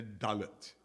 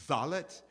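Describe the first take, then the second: First: Dalet begun with a hard D. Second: Zalet begun with a voiced TH sound; Yemenite pronunciation. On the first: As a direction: say dalet with a crisp D, not TH. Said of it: "A dalet, for instance, does have that thing". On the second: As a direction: say zalet as "thalet", TH as in "the". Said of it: "who did it were the Yemenites". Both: Shown as a demonstration.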